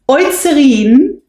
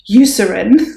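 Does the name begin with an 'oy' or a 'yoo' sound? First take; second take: oy; yoo. First: The name begins with an 'oy' sound. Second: The name begins with a 'yoo' sound. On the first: This is the German way of saying it. The speaker calls it right. "That's how you actually pronounce it" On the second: This is how Americans usually say it. The speaker calls it wrong. "I believe Americans usually say Eucerin"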